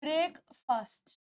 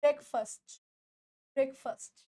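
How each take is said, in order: First: ब्रेकफास्ट said slowly, the common way learners say it; common wrong way. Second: ब्रेकफास्ट said carefully, word by word; correct pronunciation. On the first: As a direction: demo the usual mistake on ब्रेकफास्ट. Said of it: "आप लोग इसे बोलते हो". (ब्रेकफास्ट का आम गलत उच्चारण) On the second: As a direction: model the right ब्रेकफास्ट for the class. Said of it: "बोल के देखो, ब्रेकफास्ट नहीं कर रहे हो". (ब्रेकफास्ट का सही उच्चारण) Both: Shown as a demonstration.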